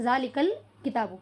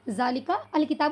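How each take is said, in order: First: The 'al' joins the previous word with no separate vowel. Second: The 'al' is said separately with its own vowel. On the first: The speaker calls it right. "बल्कि ज़ालिकल किताबु कहा" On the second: The speaker calls it wrong. "ज़ालिका अल किताबु नहीं कहा"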